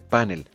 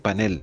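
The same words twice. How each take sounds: First: The stress is on the first syllable. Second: The stress is on the last syllable. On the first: The speaker calls it wrong. "la pronunciación grave panel, propia de la raíz de origen en inglés" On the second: The speaker calls it right. "es una palabra aguda cuya fuerza de entonación está en la última sílaba"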